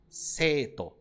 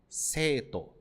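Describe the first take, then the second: Both takes have the same delivery.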